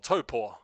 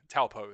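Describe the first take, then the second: First: The name is said with a Maori pronunciation. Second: The name is said with an English pronunciation. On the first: This is the native, proper way to say it. "that's the proper true pronunciation" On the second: This is how foreigners usually say it. "if you're a foreign, Taupo is usually how you say it"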